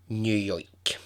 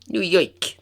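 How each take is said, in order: First: It is said in the speaker's plain accent. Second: It is said in a put-on New York accent.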